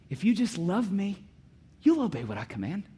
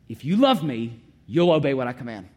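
First: It sounds like a gentle promise. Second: It sounds like a threat.

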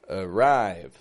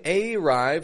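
First: The first vowel is a weak schwa. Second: The first vowel is a full, clear vowel. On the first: The speaker calls it right. "but arrive. Weak, strong" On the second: The speaker calls it wrong. "I'm not saying arrive"

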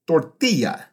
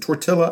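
First: The word is said in a Spanish way. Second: The word rhymes with Godzilla. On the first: It is how native speakers say it. The speaker calls it right. "native Spanish speakers will pronounce the word tortilla" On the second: It pokes fun at a mispronunciation. The speaker calls it wrong. "rhymes with Godzilla"

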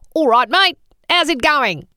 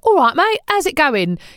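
First: It is spoken squinting, sounding Australian. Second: It is spoken in a Cockney accent. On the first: "screw your face up a bit as if you're squinting against the sun, and you get" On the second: "instead of"

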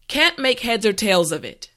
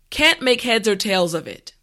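No difference in how they are said.

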